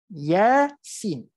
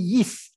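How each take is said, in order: First: Each letter is said separately by its name. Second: The letters are blended into one syllable. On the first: The speaker calls it right. "dia tidak bergabung sebutannya. Sebab itulah kita sebut Yasin" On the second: The speaker calls it wrong. "ataupun yis"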